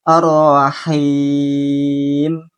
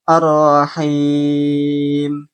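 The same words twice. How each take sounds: Both takes have the same delivery.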